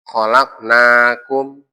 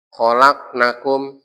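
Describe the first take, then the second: First: The vowel in 'na' is held long. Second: The vowel in 'na' is cut short. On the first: We have created you. The speaker calls it right. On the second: They, the women, have created you. The speaker calls it wrong.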